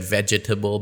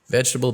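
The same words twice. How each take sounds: First: Every syllable is pronounced fully. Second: One syllable is dropped from the word. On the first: The speaker calls it wrong. "would sound weird if you said" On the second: The speaker calls it right. "you must drop the syllable"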